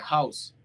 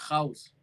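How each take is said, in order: First: The first sound is a soft h-like breath. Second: The first sound is a rough r from the throat. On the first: The speaker calls it wrong. "A gente falaria house. Mas lá, se você falar house, é como se tivesse o H na frente" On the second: The speaker calls it right. "Bem no fundo da garganta"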